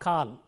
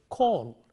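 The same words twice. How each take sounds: First: The vowel is said with unrounded lips. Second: The vowel is long with rounded lips. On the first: The speaker calls it wrong. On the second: The speaker calls it right.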